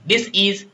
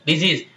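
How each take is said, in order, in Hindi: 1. यह दो अलग हिस्सों में बोला जाता है। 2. यह अंग्रेज़ी की तरह एक शब्द में मिलाकर बोला जाता है। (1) "ये क्या हो जाती है?" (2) "डिजीज बोलते हो ना अंग्रेजी में एक्सेंट लगा के"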